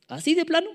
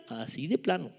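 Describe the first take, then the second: First: High, rising, startled question; incredulous question. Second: Softer, falling, settled answer; matter-of-fact confirmation. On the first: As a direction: ask it in mock disbelief, pitched up. Pregunta incrédula que luego contesta. (pregunta incrédula, voz aguda) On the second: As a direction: confirm it quietly with a falling tune. Respuesta seria a su propia pregunta. (confirmación seca, en voz baja) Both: Acted.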